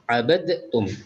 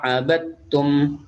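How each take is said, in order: First: The d sound is released with a bouncing echo. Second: The d sound merges into t without echo. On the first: The speaker calls it wrong. "Tidak boleh" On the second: The speaker calls it right. "tidak usah di qalqalah"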